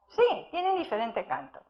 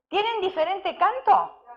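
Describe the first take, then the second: First: Quieter, falling answer with weight on sí; firm answer. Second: Lifted questioning tune on canto; asking question. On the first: Preacher answering his own question, softer and falling. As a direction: settle it, stress "Sí" and let "canto" fall. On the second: Preacher quizzing his congregation with a questioning tune. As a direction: ask "¿Tienen diferente canto?" to the listeners, rising at the end. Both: Acted.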